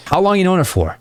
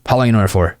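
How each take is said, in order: First: High, lively curious question; high-pitched playful banter; playful follow-up question. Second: Uninflected, rote question; dull, linear interviewer delivery; boring interview mode. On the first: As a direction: ask with bouncy, exaggerated interest. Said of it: "you're asking so many follow-up questions". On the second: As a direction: ask like ticking off a list. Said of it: "very linear and gross and just boring". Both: Shown as a demonstration.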